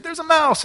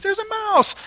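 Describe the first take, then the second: First: High voice of mock alarm; mock shriek. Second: Put-on very high squealing child voice; mock kid squeal, pitched way up; kids' voices. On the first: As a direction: imitate the wife's startled shriek. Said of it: "she shrieks and she said". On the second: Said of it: "And the kids".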